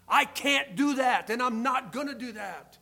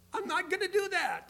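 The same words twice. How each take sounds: First: Loud, emphatic acted refusal; firm refusal. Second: High-pitched mock protest; playful mock refusal. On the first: Young believer turning down friends' night out, firmly. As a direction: push it out high and strong, standing your ground. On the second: Older churchgoer still refusing temptation, in playful high-voiced protest. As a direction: pitch it way up, without shouting.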